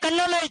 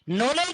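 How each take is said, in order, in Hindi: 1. इस शब्द की शुरुआत k की ध्वनि से होती है। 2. इस शब्द की शुरुआत n की ध्वनि से होती है।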